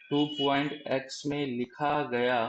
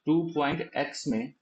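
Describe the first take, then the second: First: Slow deliberate repeat. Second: Said in the usual way. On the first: Shown as a demonstration. Teacher repeating for confused students, slow and deliberate. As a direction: slowly spell out टू point x में लिखा गया, word by word. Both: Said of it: "मैं फिर से एक बार समझाने की कोशिश".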